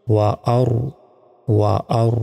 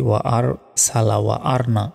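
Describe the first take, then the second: First: ওয়া আর as "wa-aru", r thick with rounded lips; full, heavy r closing ওয়া আর. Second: ওয়া আর with a flat, unrounded "ar"; common mispronunciation. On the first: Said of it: "ঠোঁটটা গোল হয়ে আসবে". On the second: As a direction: say আর thin, lips unrounded. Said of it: "আমরা অনেকে বলি". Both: Shown as a demonstration.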